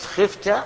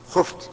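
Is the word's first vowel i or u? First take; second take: i; u. First: The first vowel is i (kasra). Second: The first vowel is u (damma). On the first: The subject is the one who fears. The speaker calls it wrong. "الكسر، لانك لو قلت خفت جعلته هو الخائف" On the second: The subject is the one who is feared. The speaker calls it right. "فاذا كنت تريد المخوف منه فقل خفت"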